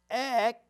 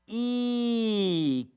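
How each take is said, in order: First: The vowel is a short e sound. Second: The vowel is a long e sound. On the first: The speaker calls it wrong. "So it's not going to say S" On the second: The speaker calls it right. "E E is going to say E"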